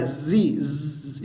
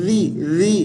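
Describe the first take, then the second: First: जी as buzzing "zee", z held; sound to avoid. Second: जी as soft "dhi", tongue slightly out; correct sound. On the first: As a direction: show faulty जी with a long hissy zzz. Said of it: "ये आवाज़ ना आए". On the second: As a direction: repeat जी with tongue between the teeth. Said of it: "ये आवाज़ है". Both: Shown as a demonstration.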